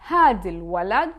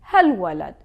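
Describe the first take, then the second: First: The word for 'this' is said in full. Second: The word for 'this' is shortened to a prefix. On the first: "instead of saying this boy" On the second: "we would say"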